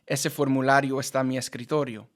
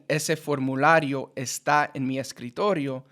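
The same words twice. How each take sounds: First: Vowels across words merge into one flowing word. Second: Each word is said separately, vowels kept apart. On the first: "I would say" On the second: "instead of saying"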